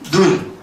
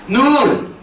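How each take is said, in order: First: The vowel is kept short. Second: The vowel is held long. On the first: It means the eye of the body. "짧게 발음하는 눈" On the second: It means snow falling from the sky. "길게 발음하는 눈"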